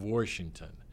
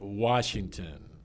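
First: It is said with a Pittsburgh regional pronunciation. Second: It is said with a standard American pronunciation. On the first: The speaker calls it wrong. "it starts out in the brain in that wrong form" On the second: The speaker calls it right. "I can say Washington instead of"

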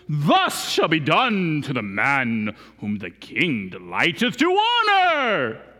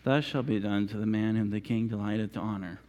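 First: It is said proudly and grandly. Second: It is said grudgingly and reluctantly.

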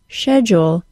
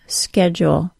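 First: It is said with a British pronunciation. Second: It is said with an American pronunciation.

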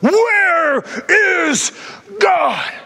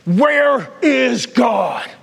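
First: It is said loudest of all. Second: It is said loudly.

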